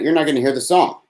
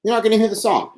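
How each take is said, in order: First: Said in the usual way. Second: Higher, whiny teasing take; mock high lament. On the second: Shown as a demonstration. To listeners who missed the song, a higher mock whine. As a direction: pitch it up like a mock complaint. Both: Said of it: "It's all an act".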